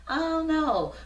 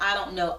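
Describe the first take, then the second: First: High, airy mock shrug; a hammed-up clueless "I don't know"; mock clueless answer. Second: Said in the usual way. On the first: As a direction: play someone who has never thought about it. Imitating people who don't know themselves. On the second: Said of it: "we're gonna get the "I don't know" out of here".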